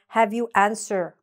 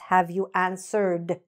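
First: The ending of answered is dropped. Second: The ending of answered is clearly pronounced. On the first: The speaker calls it wrong. "otherwise it will sound like" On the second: The speaker calls it right. "maybe you actually know that it's"

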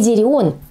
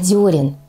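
First: The first vowel is an 'e' sound. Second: The first vowel is a stressed 'yo' sound. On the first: The speaker calls it wrong. "не «дерен»" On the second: The speaker calls it right. "а «дерен»"

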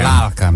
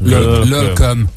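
First: The vowels are open, a-like sounds. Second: The vowels are rounded ö sounds. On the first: This is how people in the region really speak. The speaker calls it right. "inkább úgy mondanak, hogy lálkem" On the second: This is how the suspicious caller spoke. The speaker calls it wrong. "Ő pedig úgy mondta nekünk"

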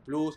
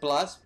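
First: The word is pronounced with a Spanish accent. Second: The word is pronounced with an English accent. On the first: "en español, bueno, Plus" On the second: "en inglés dice Plus"

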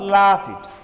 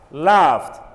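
First: The ending is not a t sound. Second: The ending is a t sound. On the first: The speaker calls it wrong. "not laughed" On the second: The speaker calls it right. "It should be pronounced as laughed"

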